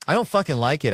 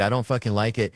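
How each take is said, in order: First: Louder, higher angry outburst; mock fury at sweaty eaters. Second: Said in the usual way. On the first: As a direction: spit it out furious. Angry repeated complaint.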